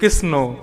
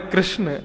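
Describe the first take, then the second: First: The word ends with an added 'o' vowel. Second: The word ends without a final 'o' vowel. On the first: This is how village elders say the name. The speaker calls it wrong. "वो बोलती कृष्णो" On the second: This is the name as it should be said. The speaker calls it right. "नाम है कृष्ण"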